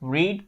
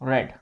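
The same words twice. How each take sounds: First: The vowel is long, as in 'reed'. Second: The vowel is short, as in 'red'. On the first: It is the base form of the verb. "read की" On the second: It is the third form of the verb. "Third form read"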